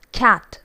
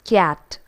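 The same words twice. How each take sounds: First: CAT with an open short A, no Y glide; cat, properly modelled; correct English cat. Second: CAT with a Y slipped in, like "kyat"; cat with intrusive Y glide; Malayali mispronunciation. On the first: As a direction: say CAT cleanly, K straight into the vowel. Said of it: "should actually be pronounced as". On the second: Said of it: "most of us pronounce it as". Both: Shown as a demonstration.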